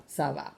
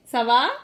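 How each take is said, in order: First: Ça va low and softer, as a statement; answering tune. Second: Ça va louder, lifting into a question; questioning tune. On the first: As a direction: answer ça va in a low, settled pitch. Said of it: "you could just answer". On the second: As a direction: ask Ça va with a raised ending. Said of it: "that question". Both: Shown as a demonstration.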